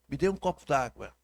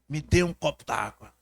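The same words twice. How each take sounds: First: It is said in a calm, neutral tone. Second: It is said harshly, close to shouting. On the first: "Quando eu digo assim" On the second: "se eu posso ser um pouco mais áspero"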